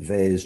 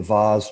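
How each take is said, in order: First: Vase said as "vayz", rhyming with days; American-style pronunciation. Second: Vase said as "vahz", rhyming with cars; British-style pronunciation. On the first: Guest corrects himself for listeners, vase as "vayz". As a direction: say vase with a long "ay". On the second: Guest offers host another pronunciation, vase as "vahz". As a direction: say vase with a broad "ah". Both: Shown as a demonstration. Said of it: "I don't know how you all pronounce".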